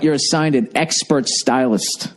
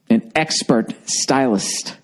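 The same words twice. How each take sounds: First: Said in the usual way. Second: Slow, lower, mocking repeat. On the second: Shown as a demonstration. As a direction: drawl it out with scorn.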